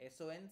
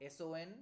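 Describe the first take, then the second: No difference in how they are said.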